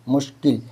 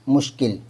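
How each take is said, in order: No difference in how they are said.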